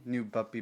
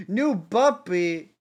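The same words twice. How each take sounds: First: Said in the usual way. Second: Slow, loud, high squeal of delight; excited. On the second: Real, not acted. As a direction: stretch it out, thrilled. Excited about the puppy.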